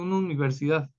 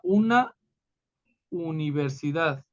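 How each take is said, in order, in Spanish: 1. La frase se dice rápido. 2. La frase se dice despacio. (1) "si lo decimos rápido" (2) "Si lo decimos despacito"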